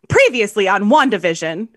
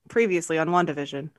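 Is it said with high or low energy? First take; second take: high; low. First: It is said with lively, high energy. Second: It is said with flat, low energy.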